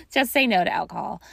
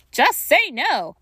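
First: Said in the usual way. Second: Slow, high, loud "just say no" with each word hit; mock slogan. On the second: Grief coach to listeners, hamming up the D.A.R.E. slogan, slow and loud. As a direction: deliver "just say no" like a drug-awareness ad.

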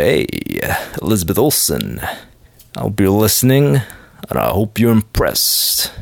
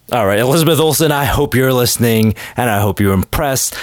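First: Put-on manly ladykiller voice, deep; manly Lothario. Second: Said in the usual way. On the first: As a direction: drop it low for a smooth Lothario. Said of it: "that real manly Lothario voice".

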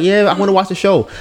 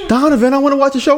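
First: Lightly raised pitch, quick delivery; quick, higher-pitched retold yes; retold agreeable reply. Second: High, quick mocking voice; rapid high-pitched mock complaint; mimicked complaining girlfriend. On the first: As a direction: quote yourself readily agreeing. Quoting own reply to girlfriend. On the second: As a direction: imitate a girlfriend pestering you.

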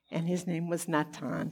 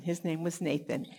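First: Natan said the Hebrew way, nah-TAHN with a held t; Hebrew name Natan. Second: Nathan said the English way, NAY-thun; English name Nathan. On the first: Teacher giving the Hebrew name Natan, then corrects to English. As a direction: give Natan its Hebrew sound before the English. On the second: Teacher settling on the English name Nathan for the class. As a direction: switch to the usual English Nathan. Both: Shown as a demonstration.

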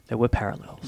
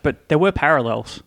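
First: "There were parallels" dropped low and soft; quiet repeat. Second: Said in the usual way. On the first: Shown as a demonstration. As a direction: mutter "There were parallels" again, lower.

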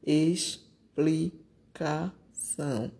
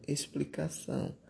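First: Explicação said slowly, split into syllables, the x as s. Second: Said in the usual way. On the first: Shown as a demonstration. Teacher splitting explicação into syllables for pupils. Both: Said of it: "Letra D".

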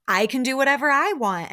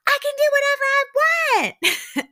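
First: Louder, higher mock comeback without screaming; acted comeback, moderately raised voice; milder retort. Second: Imitated screech, very high and loud; full-volume mock tantrum; retold yell. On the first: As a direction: imitate a firm, controlled retort. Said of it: "Kiki is saying this calmly". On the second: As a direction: mimic a defiant screamed outburst. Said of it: "Lisa has been yelling this whole time".

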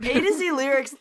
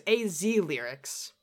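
First: "A to Z Lyrics" with a quick "to" slipped in; wrong site name. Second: "A Z Lyrics" said slowly, letter by letter, no "to"; correct site name. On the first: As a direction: says "A to Z Lyrics", the wrong way, with "to" between A and Z. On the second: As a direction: spell it out as "A Z Lyrics", just A then Z. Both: Shown as a demonstration. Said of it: "not A to Z Lyrics".

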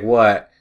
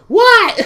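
First: Said in the usual way. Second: Loud, very high yelled reply; mock yell. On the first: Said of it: "Quinn would come upstairs and be like". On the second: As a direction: imitate a housemate yelling back. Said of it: "She would yell".

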